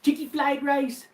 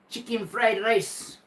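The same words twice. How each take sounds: First: "Chicky flied rice" read high and slow, with the l in "flied" spoken as written; reading the typo. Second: "Chicken fried rice" spelled out slowly and high, with a clear r in "fried"; careful correction. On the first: Retold or imitated. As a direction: say "flied" with an l, drawn out and higher. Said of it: "Instead of chicken fried rice is what he meant". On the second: Shown as a demonstration. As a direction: spell out the right words slowly, as if to a kid. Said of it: "It's fried rice with chicken in it".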